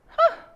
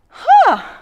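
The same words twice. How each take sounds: First: The 'huh' sounds calm and neutral. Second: The 'huh' sounds eager and excited. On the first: The speaker stays curious without judging. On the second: The speaker is excited about something.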